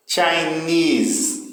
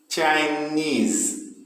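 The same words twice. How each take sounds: First: Chinese, chi light and NESE strong; final-syllable stress on Chinese. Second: Chinese, NESE hit with a fall; stress on NESE. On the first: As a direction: land on the end of Chinese. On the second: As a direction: push the last syllable of Chinese. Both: Shown as a demonstration. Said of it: "O final aí que tem mais força".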